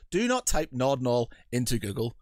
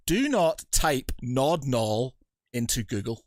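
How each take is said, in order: First: Said in the usual way. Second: Slow, each word of "do not type Nod Nall" weighted; solemn warning. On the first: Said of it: "with your Red Dwarf reference". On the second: Real, not acted. Host warning the audience, slow solemn stress. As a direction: deliver it like a public warning. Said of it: "ladies and gentlemen".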